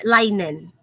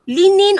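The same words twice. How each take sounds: First: "linen" said LINE-en; long i, like "line", opening "linen"; alternate pronunciation. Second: "linen" said LIN-in; short i in both syllables of "linen": LIN-in; alternate pronunciation. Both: Shown as a demonstration. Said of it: "linen or linen".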